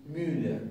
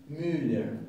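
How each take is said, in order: No difference in how they are said.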